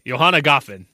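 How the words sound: The voice falls confidently at the end. The speaker sounds sure, even if wrong. The speaker calls it right. "I need to say it with confidence"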